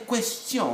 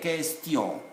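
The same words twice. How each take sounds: First: The U after the Q is sounded. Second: The U after the Q is silent. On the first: The speaker calls it wrong. "So it's not a question" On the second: The speaker calls it right. "U is silent when there is E after it"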